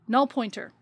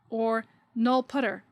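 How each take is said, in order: First: The second part is said in full as 'pointer'. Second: The second part is shortened to 'putter'.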